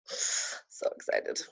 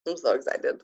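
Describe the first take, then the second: First: Slow breathy whisper of excitement. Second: Said in the usual way. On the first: Real, not acted. Repeat of line 34, whispered.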